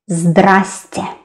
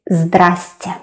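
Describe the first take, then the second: First: The word is shortened to two syllables. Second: The same.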